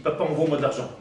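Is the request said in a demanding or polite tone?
demanding. The request sounds harsh and demanding. The son is speaking rudely to his father. The speaker calls it wrong. "comme ça, il me parle, je ne le vois pas"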